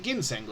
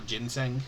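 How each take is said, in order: First: "ginseng" with a hard G as in "give". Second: "ginseng" with a soft G, like "jin-seng". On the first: Reader checks the word aloud, "ginseng" with hard G. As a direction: say "ginseng" starting with a hard G sound. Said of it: "Is it ginseng or ginseng?". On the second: Reader tries the other option, "ginseng" with soft G. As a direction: say "ginseng" starting like the drink gin. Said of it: "I say gin. Yeah, it is gin". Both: Shown as a demonstration.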